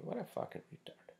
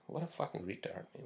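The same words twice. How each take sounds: First: Breathy high whisper, half to himself; incredulous whisper. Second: Said in the usual way. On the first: Real, not acted. Vlogger venting about a rude client, high disbelieving whisper.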